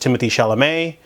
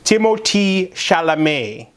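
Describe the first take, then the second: First: The name is pronounced in a plain English way. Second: The name is pronounced in a French way. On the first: The speaker calls it wrong. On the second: The speaker calls it right.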